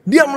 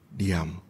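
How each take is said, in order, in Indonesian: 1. Diucapkan dengan nada memarahi dan marah. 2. Diucapkan dengan nada lembut dan penuh kasih sayang. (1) "Tuhan lagi marahin kita karena terlalu berisik. Diam loh gitu ya" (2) "dengan nada yang penuh kelembutan dia mengatakan"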